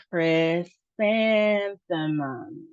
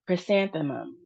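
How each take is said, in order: First: "chrysanthemum" very slow, syllable by syllable; slow sounding-out. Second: Said in the usual way. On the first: Shown as a demonstration. Teacher helping learners try it, slow sounding-out. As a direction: stretch "chrysanthemum", holding the second syllable "san". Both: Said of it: "So let's try it".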